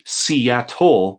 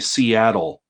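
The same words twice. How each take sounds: First: The middle consonant is a crisp T. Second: The middle consonant is a soft D. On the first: "We don't say T" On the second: "we say D"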